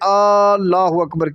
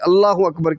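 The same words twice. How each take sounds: First: The opening vowel is drawn out long. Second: The opening vowel is short. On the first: The speaker calls it wrong. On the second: The speaker calls it right.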